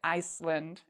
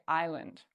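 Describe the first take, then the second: First: An s sound is heard in the middle. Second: No s sound is heard in the middle. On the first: The speaker calls it wrong. "We don't say Iceland" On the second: The speaker calls it right. "we say island. The S is silent"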